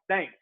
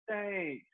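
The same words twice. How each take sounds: First: It is said plainly and flatly. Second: It is said warmly, with a playful, flirty lilt.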